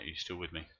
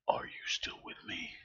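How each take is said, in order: First: Said in the usual way. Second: Eerie, breathy put-on whisper; mock whisper. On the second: Streamer asking if chat is still there, mock whisper. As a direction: whisper it as if calling into the void.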